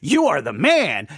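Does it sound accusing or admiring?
admiring. It sounds like admiring praise.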